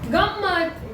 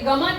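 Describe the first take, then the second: First: It has a nasal before a lengthened m. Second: It has a plain single m with no nasal. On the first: The speaker calls it right. "ऊपर अनुस्वार है ना, तो क्या होना चाहिए?" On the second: The speaker calls it wrong. "ये गमत है क्या?"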